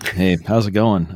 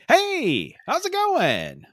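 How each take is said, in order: First: It sounds bored and uninterested. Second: It sounds lively and excited.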